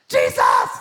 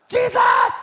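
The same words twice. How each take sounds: Both takes have the same delivery.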